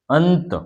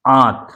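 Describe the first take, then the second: First: अंत with nasal after अ; anusvara demo. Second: आंत with nasalised आ, louder; chandrabindu demo. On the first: Teacher contrasting अंत with आंत. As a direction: let the nasal follow अ in अंत. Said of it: "अनुस्वार का प्रयोग वर्ण के बाद". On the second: Teacher contrasting आंत with अंत. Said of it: "इसमें उच्चारण में समय कम लगा". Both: Shown as a demonstration.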